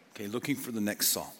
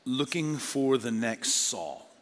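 First: Soft repeat. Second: Slow emphasis. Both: Shown as a demonstration. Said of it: "I'm just gonna call it this".

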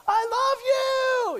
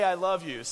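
First: High, loud fan scream from the crowd; shrieking concert fan; fan yelling. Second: Said in the usual way. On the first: Retold or imitated. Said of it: "and yells that out". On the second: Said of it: "Don't just say".

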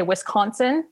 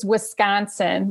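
First: "Wisconsin" with an open "kahn" in the middle; outsider pronunciation. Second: "Wisconsin" with a flat A, "wis-KAN-sin"; local pronunciation. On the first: Local quoting people who aren't from there, outsider's "Wisconsin". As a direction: say "Wisconsin" slowly as "wis-KAHN-sin". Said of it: "people who aren't from Wisconsin, they say". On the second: Local correcting outsiders, "Wisconsin" with A for O. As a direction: say "Wisconsin" slowly, middle vowel as in "can". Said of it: "almost like there's an A there instead of an O". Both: Shown as a demonstration.

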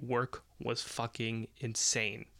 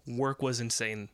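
First: Slow, deliberate "work was fucking insane", each word weighted; emphatic repeat. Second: Said in the usual way. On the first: Real, not acted. Storyteller repeating how insane work was, slowly and emphatically. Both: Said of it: "I'll repeat".

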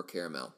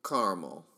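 First: Caramel said as three syllables, CARE-uh-mel. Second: Caramel said as two syllables, CAR-mul. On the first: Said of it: "I do say caramel". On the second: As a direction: say "caramel" as CAR-mul, dropping the middle vowel. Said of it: "Some people say caramel". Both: Shown as a demonstration.

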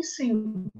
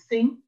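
First: "sing" com S inicial, não TH; S distinto de TH. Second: "thing" com TH inicial, não S; TH distinto de S. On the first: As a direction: diga "sing" começando com um S comum. ("sing" com som de S, distinto de "thing") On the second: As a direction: diga "thing" com a língua entre os dentes. ("thing" com som de TH, distinto de "sing") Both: Shown as a demonstration. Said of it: "saber fazer a distinção entre".

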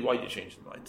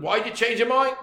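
First: Much softer, hesitant and shy; timid question. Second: Said in the usual way. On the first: Retold or imitated. Widow shyly asks the brother why, timidly. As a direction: ask it as if afraid of the answer. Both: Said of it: "She asked him timidly".

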